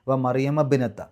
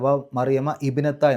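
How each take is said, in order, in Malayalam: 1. 'b' മുമ്പുള്ള വാക്കുമായി നേരിട്ട് ബന്ധിക്കുന്നു. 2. 'bnata' യ്ക്ക് മുമ്പ് വേറിട്ട 'i' സ്വരം ഉച്ചരിക്കുന്നു. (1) "നേരെ ബ് എന്നാ പറയേണ്ടത്" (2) "അല്ലാതെ ... എന്നല്ല"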